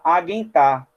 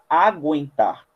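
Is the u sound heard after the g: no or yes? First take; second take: no; yes. First: No w sound follows the g. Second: A w sound follows the g. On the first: The speaker calls it wrong. "para você não falar aguentar" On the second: The speaker calls it right. "falar aguentar"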